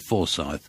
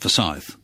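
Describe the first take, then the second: First: The stress falls on the first syllable. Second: The stress falls on the second syllable. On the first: The speaker calls it wrong. "I always say Forsyth" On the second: The speaker calls it right. "it's Forsyth, because it's Scottish"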